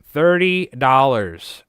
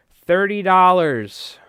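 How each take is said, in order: First: "thirty" hit loud, slow and falling; repeated for emphasis. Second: "thirty dollars" drawn out high and loud, slowly; stress on thirty dollars. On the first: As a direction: repeat "thirty dollars" slowly, punching "thirty". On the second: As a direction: lean hard on "thirty dollars" to sell the price. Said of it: "price stressed for viewers". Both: Real, not acted.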